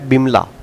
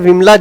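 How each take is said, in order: First: The name begins with a b sound. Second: The name begins with a v sound. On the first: This is the Bengali form of the name. "व को ब पढ़ने का जो है प्रचलन" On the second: This is the North Indian form of the name. "अपने यहाँ पे विमला जैसे नाम चलते हैं"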